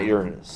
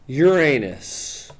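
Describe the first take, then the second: First: It sounds like 'urine' followed by 'us'. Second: It sounds like 'your' followed by 'anus'. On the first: This is not how the town says it. The speaker calls it wrong. "not Uranus" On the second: This is how the town says it. The speaker calls it right. "the way any self-respecting class clown would say it"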